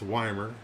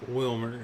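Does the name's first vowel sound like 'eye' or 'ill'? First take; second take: eye; ill. First: The first vowel sounds like the word 'eye'. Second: The first vowel sounds like the vowel in 'ill'. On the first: The speaker calls it right. "The I makes an I sound" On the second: The speaker calls it wrong. "not Wilmer"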